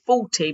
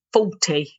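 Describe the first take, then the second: First: Said in the usual way. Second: "Faulty" said with a drawn FAW at the start; FAW pronunciation. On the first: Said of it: "it's not fault, it's faulty". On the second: Shown as a demonstration. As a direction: say "Faulty" as if spelt F-A-W-ty. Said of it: "but I always say it like ... F A W".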